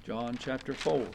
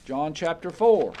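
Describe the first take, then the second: First: Much softer, half to himself; murmured to self. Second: Calling out. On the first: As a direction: mumble it while turning pages. Murmured while finding the page. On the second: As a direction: call the chapter out to the hall. Calling out the chapter. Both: Real, not acted.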